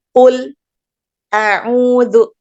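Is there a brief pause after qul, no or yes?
yes. A brief stop without breath follows qul. "dengan saktah sebelum hamzah"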